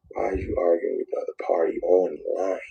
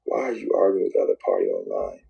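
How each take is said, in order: First: Hushed, voiceless self-warning; whisper. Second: Lower, voiceless repeat of the rebuke; low whisper. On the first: Man whispering a warning to himself about online fights. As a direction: whisper it to yourself as a rebuke. Coaching himself to stop arguing. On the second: Man whispering the same warning to himself again, lower. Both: Retold or imitated.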